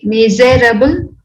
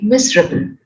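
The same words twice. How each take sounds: First: All four syllables are pronounced fully. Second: One syllable is dropped, giving three syllables. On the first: The speaker calls it wrong. "Do we say miserable? No" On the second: The speaker calls it right. "we say miserable"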